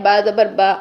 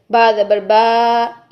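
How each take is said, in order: First: Said in the usual way. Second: बा ज़बर बा with the बा drawn out slow and long; wrongly stretched vowel. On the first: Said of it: "ये ठीक है". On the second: Shown as a demonstration. Teacher showing students the wrong, stretched बा. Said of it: "ये गलत है".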